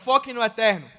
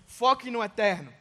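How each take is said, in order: First: It is said with more force. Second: It is said with normal force.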